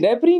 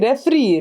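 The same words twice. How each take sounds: First: The middle consonant sounds like a p. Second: The middle consonant sounds like an f. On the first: The speaker calls it wrong. "रेफरी नहीं" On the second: The speaker calls it right. "एफ और पी ठीक कराऊंगी"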